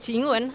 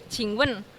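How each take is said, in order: First: The second syllable has no sharp, forceful fall. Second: The second syllable has a sharp, forceful fall. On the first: It means to kiss. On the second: It means to ask a question.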